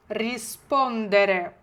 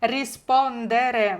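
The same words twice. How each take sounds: First: Slow, clear Rispondere, every syllable spelled out; slow teacher model of Rispondere; slow model word. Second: Slow, clear Rispondere, stress on -spon-; a drawn-out Rispondere to repeat; slow model word again. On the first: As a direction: Rispondere drawn out slowly for pupils to repeat. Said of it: "повторюємо вголос". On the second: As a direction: Rispondere stretched out for the class to echo. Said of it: "Не чую". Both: Shown as a demonstration.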